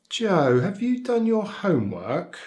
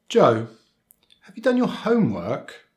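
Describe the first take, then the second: First: Serious, slightly formal, falling on "homework"; concerned question, high then dropping through "homework"; falling intonation. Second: High "homework", rising at the end; rising intonation. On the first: Teacher asks Joe about homework, concerned falling intonation. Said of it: "We can also use a falling intonation". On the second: Teacher asks Joe about homework, rising intonation. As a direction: ask a yes-no question, lifting the end of "homework". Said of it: "which is the rising intonation". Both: Shown as a demonstration.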